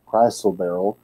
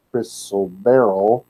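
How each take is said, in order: First: Chrysoberyl with a long i, CRY-sul-berr-ul; alternative pronunciation. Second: Chrysoberyl with a short i, KRISS-ul-berr-ul; first pronunciation. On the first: Teacher offering another way to say it, chrysoberyl with a long i. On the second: Teacher unsure of the gem's name, chrysoberyl with a short i. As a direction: say chrysoberyl starting like "Chris". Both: Shown as a demonstration. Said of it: "not sure how you pronounce that word".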